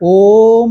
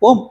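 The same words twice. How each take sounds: First: The word is drawn out long. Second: The word is said short and clipped. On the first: The speaker calls it wrong. "சில பேர் வந்து இழுத்து சொல்லுவாங்க" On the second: The speaker calls it right. "ஓம் அவ்வளோதான்"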